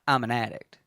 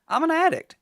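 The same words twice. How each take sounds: First: It is said in a downbeat, negative tone. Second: It is said in an upbeat, positive tone.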